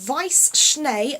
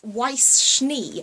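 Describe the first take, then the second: First: The name is pronounced the German way. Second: The name is pronounced the English way. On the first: The speaker calls it right. "it's Weiss Schnee" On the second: The speaker calls it wrong. "not Weiss Schnee"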